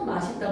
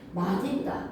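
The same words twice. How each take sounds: First: The linked consonant is an s sound. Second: The linked consonant is a d sound. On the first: This form is accepted because people commonly say it. "사람들이 하도 맛있다, 멋있다 하니까 ... 허용이 되는 것이고" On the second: This is the standard form. "이게 원칙이야"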